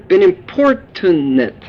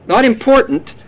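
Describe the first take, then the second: First: Importunate said slowly, im-POR-tu-nate; careful word. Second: Important said as the wrong word; contrasting word. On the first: The preacher corrects the flock to importunate, slowly. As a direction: importunate drawn out syllable by syllable. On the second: The preacher warns the flock off the wrong word, important. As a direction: important with a plain stressed PORT. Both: Shown as a demonstration.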